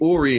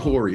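First: The name begins directly with a vowel sound. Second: The name begins with an H sound. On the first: The speaker calls it right. "everybody in the studio is calling me Ori" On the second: The speaker calls it wrong. "you're the one that's forever saying Hori"

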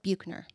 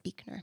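First: The name is said the way it is spelled. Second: The name is said unlike its spelling. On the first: The speaker calls it wrong. "It looks like Buechner" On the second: The speaker calls it right. "but it's Buechner"

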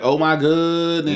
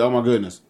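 First: The word goodness is stretched out long. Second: The word goodness is said short and quick.

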